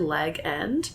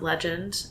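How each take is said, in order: First: The g is hard, as two words leg end. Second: The g is soft, like a j sound. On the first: The speaker calls it right. "It's actually Leg End" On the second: The speaker calls it wrong. "We've actually been mispronouncing it"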